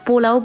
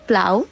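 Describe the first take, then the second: First: A vowel separates the p and l sounds. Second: The p and l sounds form one cluster. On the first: The speaker calls it wrong. "ভুল নাম উচ্চারণ করে আসছিলাম" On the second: The speaker calls it right. "এটার আসল নাম হচ্ছে প্লাউ"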